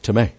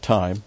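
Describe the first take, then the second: First: Time said as tih-MAY; Greek pronunciation. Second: Time as the one-syllable English word; English pronunciation. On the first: Teacher correcting to the Greek word, time as tih-MAY. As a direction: say time in two syllables, ending in MAY. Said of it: "this is not time, but time". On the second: Teacher showing the wrong reading, time as English TYME. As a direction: say time to rhyme with lime. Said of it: "Now, this is not time". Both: Shown as a demonstration.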